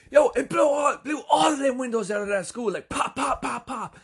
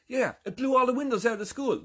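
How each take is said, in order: First: Very high mock shout, easing through the pops; excited emphasizer. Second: High, excited mock report; animated confirmation. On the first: Henry repeats Mike while jumping, imitated in a wildly excited shout. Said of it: "Henry gets excited by what's happening". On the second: Mike tells of the school windows, imitated with high excitement. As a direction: pile on the detail eagerly, short of shouting. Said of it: "Mike goes".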